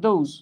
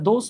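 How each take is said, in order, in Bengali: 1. শব্দটি z ধ্বনি দিয়ে শেষ হয়। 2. শব্দটি s ধ্বনি দিয়ে শেষ হয়। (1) "এটা হলো দোজ" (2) "এটা দোস বা বন্ধু না"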